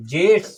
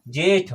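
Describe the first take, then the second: First: जेठ read as "jyeshth", with a half sh before the th; Sanskrit reading. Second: Said in the usual way. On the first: Shown as a demonstration. Teacher reads out the tatsam form for the class, Sanskrit reading. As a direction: put a sh into जेठ: "jeshth". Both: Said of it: "क्या पढ़ेंगे?".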